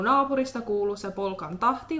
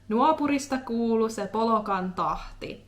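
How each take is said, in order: First: It is said in standard Finnish. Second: It is said in Eastern Finnish dialect.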